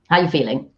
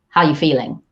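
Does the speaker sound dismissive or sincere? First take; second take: dismissive; dismissive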